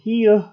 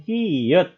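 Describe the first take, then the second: First: The word ends in an h sound. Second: The word ends in a t sound. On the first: The speaker calls it wrong. "dibacanya bukan hieuh" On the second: The speaker calls it right. "di akhir pun dibaca menjadi T"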